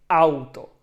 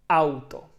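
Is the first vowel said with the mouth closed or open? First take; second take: open; open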